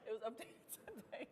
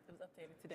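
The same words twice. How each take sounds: First: It is said while laughing. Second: It is said without laughing.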